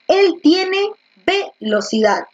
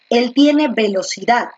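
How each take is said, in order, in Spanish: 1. El acento está en la primera sílaba, ve. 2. El acento está en la última sílaba, dad.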